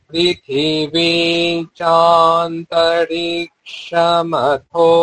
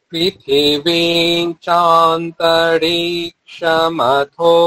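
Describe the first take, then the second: No difference in how they are said.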